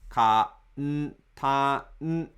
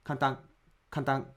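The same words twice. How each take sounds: First: Ka n ta n, each said as its own even beat; mora by mora. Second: Kantan rushed with kan as one beat; quick clipped kantan; foreign kantan. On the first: Teacher breaking kantan into four morae. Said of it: "instead of saying kantan". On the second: Teacher imitating a foreign learner's kantan. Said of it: "Many foreigners say kantan like". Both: Shown as a demonstration.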